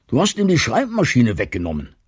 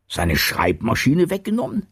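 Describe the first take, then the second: First: Said in the usual way. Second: Higher, rising question of disbelief; incredulous echo. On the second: A narrator's reading. Martin echoes Bertha's accusation, incredulous. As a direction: repeat the accusation as a stunned question.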